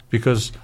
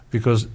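The two takes are said the same way.

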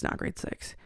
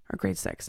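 First: Breathy whisper, almost to herself; whispered correction. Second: Said in the usual way. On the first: Real, not acted. Correcting her own age to the listener, whispered. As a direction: correct the number under your breath.

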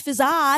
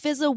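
First: "fizza" with a drawn-out, stressed final AH; wrong pronunciation. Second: Said in the usual way. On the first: Shown as a demonstration. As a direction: say "fizza" as fiz-AAH. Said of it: "it's not pronounced fizza". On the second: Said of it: "It's just pronounced fizza".

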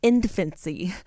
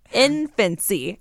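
First: Said in the usual way. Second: "Infancy" drawn out slowly for emphasis; slow, deliberate "Infancy"; emphatic repeat. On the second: Real, not acted. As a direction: stretch out "Infancy" to drive it home.

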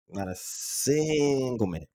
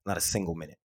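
First: "single" drawn out long and pitched up; stress on single. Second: Said in the usual way. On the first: Real, not acted. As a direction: stretch out the word "single" slowly for emphasis. Repeats it for emphasis.

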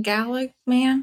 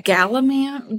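First: Galaman said slowly, rising, unsure; unsure pronunciation. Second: Said in the usual way. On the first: Shown as a demonstration. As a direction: try Galaman as a doubtful question.

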